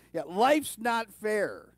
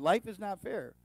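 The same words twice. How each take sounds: First: Loud, higher, drawn-out mock-parent comeback; parent's retort. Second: Said in the usual way. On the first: Parents answering their teens, loud drawn-out retort. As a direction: stretch it out loudly like a parent laying down the law. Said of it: "ever heard their parents say". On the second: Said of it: "that's a true statement".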